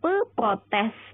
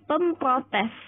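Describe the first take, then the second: First: Pe is followed directly by protes, no m. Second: An m sound links pe and protes. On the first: The speaker calls it wrong. "Jadi bukan pe protes" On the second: The speaker calls it right. "tapi pemprotes"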